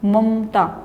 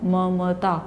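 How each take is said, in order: First: The second m has no vowel after it. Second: The second m has a full vowel after it. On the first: This is everyday casual speech. The speaker calls it wrong. "जो दूसरा म है उसके बाद अ की ध्वनि बोली ही नहीं, आधा म बोलते हैं" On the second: This is careful Sanskrit pronunciation. The speaker calls it right. "इस तरह से उसको प्रवाह से बोलते हैं।"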